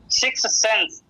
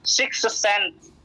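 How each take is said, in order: First: Said in the usual way. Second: six sense drawn out slowly, each word weighted; slow emphasis. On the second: Shown as a demonstration. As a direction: lay down six sense slowly like a key term.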